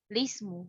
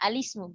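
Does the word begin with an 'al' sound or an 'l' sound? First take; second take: l; al. First: The word begins directly with an 'l' sound. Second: The word begins with an 'al' sound. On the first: "dapat dimulai membaca tanpa melafazkan hamzah wasal terlebih dahulu" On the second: "kalau mulai dari al-ismu gimana cara bacanya?"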